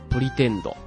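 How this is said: It is said with a Japanese katakana pronunciation.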